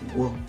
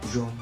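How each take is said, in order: First: The word begins with a hard 'g' sound. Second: The word begins with a soft 'zh' sound. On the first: The speaker calls it right. "on va dire guam" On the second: The speaker calls it wrong. "On va pas dire jom"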